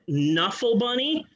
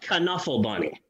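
First: The first word starts with an N sound. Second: The first word starts with a K sound. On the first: "I don't say that" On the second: "I pronounce the K in the beginning"

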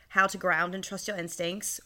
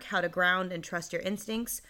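First: It is said in a put-on Australian-British accent. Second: It is said in the speaker's natural accent.

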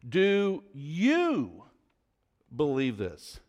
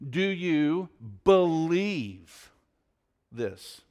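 First: The stress is on "you". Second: The stress is on "believe".

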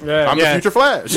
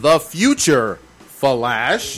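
First: There is no pause between future and Flash. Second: There is a pause between future and Flash. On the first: The speaker is the Flash from the future. "rather than" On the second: The speaker is the future and addresses the Flash. "We thought he was saying"

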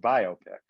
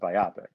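First: It is said as bio plus pic. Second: It is not split into bio plus pic. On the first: The speaker calls it right. "Because you would think just from the words what they mean, it's a biopic" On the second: The speaker calls it wrong. "because people want to be fancier, they call it a biopic"

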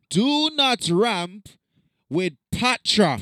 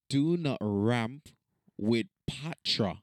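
First: It is said with lively, forceful energy. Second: It is said with ordinary, low energy. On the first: The speaker calls it right. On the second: The speaker calls it wrong.

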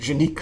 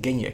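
First: The name is pronounced like Janiek. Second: The name is pronounced like Genjek. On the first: The speaker calls it wrong. "Je denkt natuurlijk Janiek als je dat ziet staan" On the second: The speaker calls it right. "eigenlijk zeg je Genjek"

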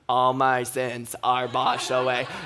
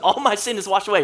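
First: It is said flatly, like a robot. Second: It is said with joy and gusto. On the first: The speaker calls it wrong. "this is a little bit of what it sounds like" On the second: The speaker calls it right. "I want us to say this with some joy"

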